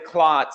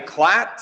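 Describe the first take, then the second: First: The vowel sounds like the o in cot. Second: The vowel sounds like the a in cat. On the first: "some say clot" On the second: "Some say clat"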